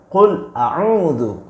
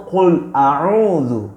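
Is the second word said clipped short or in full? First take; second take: full; full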